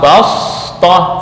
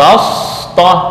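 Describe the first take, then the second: First: The s sound is emphatic and heavy. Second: The s sound is emphatic and heavy.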